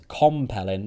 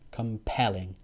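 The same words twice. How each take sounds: First: The stress is on the first syllable. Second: The stress is on the second syllable. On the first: The speaker calls it wrong. "not compelling" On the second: The speaker calls it right. "the stress is on the second syllable"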